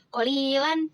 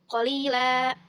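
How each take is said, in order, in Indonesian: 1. Kata ini berakhir dengan bunyi n. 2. Kata ini berakhir dengan vokal a yang dipanjangkan.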